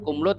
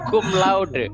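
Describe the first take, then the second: First: Laude is clipped to one syllable, like kumlut. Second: Laude is said fully with two syllables. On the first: The speaker calls it wrong. "Bukan cum laude loh Mas ya" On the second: The speaker calls it right. "jadi itu cum laude"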